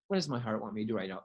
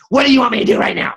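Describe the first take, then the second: First: It is said in a calm, loving tone. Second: It is said in a harsh, mean tone.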